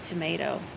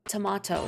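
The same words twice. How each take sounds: First: It is said with an American pronunciation. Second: It is said with a British pronunciation. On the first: "instead of" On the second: "English from the U K, particularly with regarding uh, re- pronunciation"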